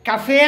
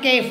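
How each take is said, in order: First: It is said as two syllables, like kaffay. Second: It is said as one syllable, like kef. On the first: The speaker calls it right. "కఫే అని పలకాలట" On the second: The speaker calls it wrong. "అది కేఫ్ అని పలకూడదుట"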